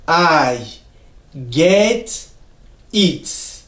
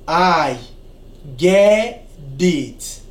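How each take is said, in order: First: The t in get is a clear t sound. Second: The t in get sounds like a soft d. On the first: "Na anglais okoloba" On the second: "na anglais américain awa na États-Unis okoyoka batu nyonso balobaka kaka"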